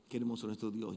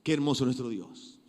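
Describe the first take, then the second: First: Softer, lower reverent repeat; soft reverent echo; hushed praise. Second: Said in the usual way. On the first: Acted. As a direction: breathe it out in awe.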